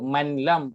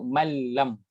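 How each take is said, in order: First: A separate n sound is heard before the l. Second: No separate n sound comes before the l. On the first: The speaker calls it wrong. "Kita tak sebut manlam" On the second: The speaker calls it right. "kita sebut malam"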